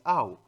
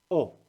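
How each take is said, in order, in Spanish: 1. Se pronuncia como dos vocales, 'a-u'. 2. Se pronuncia como una sola vocal 'o'. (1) "en francés ya no es au" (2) "sino es o"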